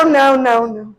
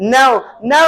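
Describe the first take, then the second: First: Now spoken with a falling tune. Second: Now spoken with a rising tune; now with a rise. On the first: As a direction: drop now at the end. (now नीचे गिरती आवाज़ में) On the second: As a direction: lift now at the end. (now ऊपर उठती आवाज़ में) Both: Shown as a demonstration. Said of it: "अब now भी हम दो तरीके से बोलना सीख गए".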